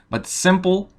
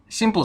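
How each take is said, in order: First: The vowel has a native-like English quality. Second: The vowel has a Russian-accented quality. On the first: The speaker calls it right. "but simple, like si, simple" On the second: The speaker calls it wrong. "Simple sounds funny"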